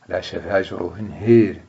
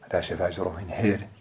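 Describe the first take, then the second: First: The long vowel of the last word is fully fronted. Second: The long vowel of the last word is partly fronted. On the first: "تقرأ لقالون بالإيمان المحض" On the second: "يقرأها ورش بين"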